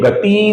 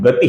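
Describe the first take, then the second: First: The final vowel is long. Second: The final vowel is short. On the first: The speaker calls it wrong. "ये गति नहीं है" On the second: The speaker calls it right. "गति का ती ह्रस्व है"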